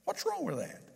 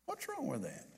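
First: Higher, softer challenging retort; mild mock challenge, pitched up; challenging question. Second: Much softer repeat of the challenge; quiet echo of the retort; repeated under breath. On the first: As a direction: toss the question back, a touch defiant. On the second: Retold or imitated. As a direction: let the repeat drop away, nearly to nothing. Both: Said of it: "And she said".

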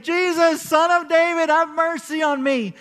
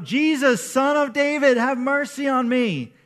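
First: Much higher and louder, crying out with everything; a blind beggar yelling over people who hush him; retold desperate yell; louder desperate shout. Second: Calling out louder and higher, pleading; a beggar crying out to be heard over a crowd; retold cry for mercy, raised voice; shout. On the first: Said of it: "the more that people are telling him to be quiet". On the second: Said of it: "so he starts to shout".

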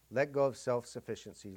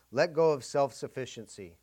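First: Said in the usual way. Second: "go" hit louder and held, falling; stress on go. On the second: Shown as a demonstration. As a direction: lean hard on "go" in "let go".

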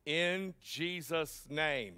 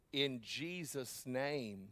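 First: Tossed-off tagline. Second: Slow, soft, weighty "in Jesus' name"; earnest, deliberate. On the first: Retold or imitated. Pastor mocking the tagline ending, throwaway tone. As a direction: drop "In Jesus' name" as a lazy tag. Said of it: "they just add a tagline". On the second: Shown as a demonstration. Pastor showing the real way to pray, slow and earnest. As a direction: lay each word of "in Jesus' name" down slowly. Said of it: "Now listen, when you pray".

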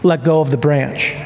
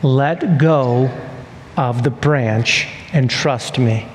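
First: Low, even instruction as God. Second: Low, deliberate repeat with pauses; voice of God. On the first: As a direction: give the order calmly, pitched low. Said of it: "And so God says to Jack". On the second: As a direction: spell out the order gravely, phrase by phrase. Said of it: "God says it again". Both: Acted.

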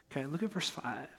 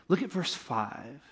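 First: Said again much softer, almost aside; softer repeat. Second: Said in the usual way. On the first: Shown as a demonstration. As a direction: drop the voice for the repeat.

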